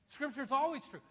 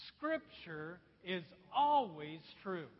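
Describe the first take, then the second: First: Said in the usual way. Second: Slow, louder, read in one voice; unison reading. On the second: Shown as a demonstration. Preacher leading the congregation in unison, slow and loud. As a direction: read it aloud slowly with the whole room. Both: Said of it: "Let's all read this in one voice".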